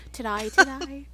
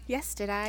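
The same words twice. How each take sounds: First: "Today" said as "to-die", Australian vowel; mock Australian "to-die" for today; playful Australian "Today, today" said as "to-die"; Australian accent. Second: Said in the usual way. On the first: Shown as a demonstration. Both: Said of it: "Unless I do today".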